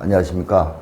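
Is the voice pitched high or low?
low. It is said at a lower, timid pitch.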